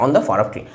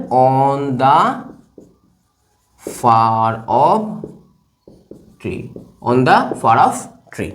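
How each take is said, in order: First: Said in the usual way. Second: Slow, with long gaps between words; drawn-out dictation. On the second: Shown as a demonstration. Teacher writing "on the far off tree", drawn-out dictation. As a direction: spell it out word by word at writing speed.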